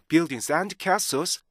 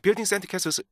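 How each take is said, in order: First: The phrase is read slowly, in a relaxed way. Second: The phrase is read quickly, as if rushed. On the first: The speaker calls it right. "굉장히 여유 있게 읽어요" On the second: The speaker calls it wrong. "굉장히 급하고 뭔가 쫓기는 것처럼 그렇게 읽게 돼요"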